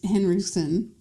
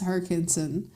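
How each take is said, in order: First: The name is said as Henriksen, with the n. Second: The name is said as Herkinson, without the n. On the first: The speaker calls it right. "I missed the N in there" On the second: The speaker calls it wrong. "You said Herkinson"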